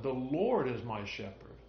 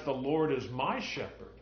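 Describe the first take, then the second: First: Emphasis on "Lord"; stress on LORD. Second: Emphasis on "my"; stress on MY. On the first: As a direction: lean on the word "Lord", letting the rest fall away. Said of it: "we could emphasize either one". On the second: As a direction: lean on the word "my", making it personal. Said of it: "Or we could emphasize". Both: Shown as a demonstration.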